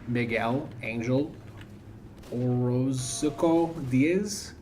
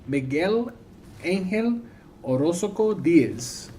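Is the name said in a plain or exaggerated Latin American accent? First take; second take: plain; exaggerated Latin American. First: The name is said in a plain accent. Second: The name is said in exaggerated Latin American accent.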